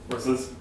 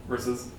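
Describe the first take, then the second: Both takes have the same delivery.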